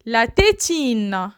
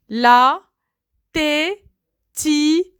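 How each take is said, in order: First: Said in the usual way. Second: "La", pause, "tétine" with a rising end; syllabified. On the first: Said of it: "word said whole after split". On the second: Shown as a demonstration. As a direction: break "La tétine" into beats. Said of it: "word split into syllables". ("La tétine" détaché, montée à la fin)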